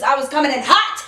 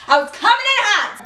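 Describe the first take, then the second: First: Said in the usual way. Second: Pitched-up, punchy repeat; excited emphasis. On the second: Real, not acted. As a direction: hit it higher, all worked up. Repeats line with rising excitement.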